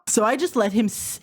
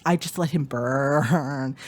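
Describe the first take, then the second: First: Said in the usual way. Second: "I just let him burn" said slower and lower; slow low repeat. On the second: Real, not acted.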